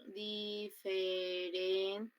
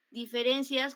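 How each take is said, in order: First: Very slow, drawn-out syllables in "Diferencias". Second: Said in the usual way. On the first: Shown as a demonstration. Teacher counting syllables for the class, syllable by syllable. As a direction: stretch "Diferencias" into separate long syllables, softer and level.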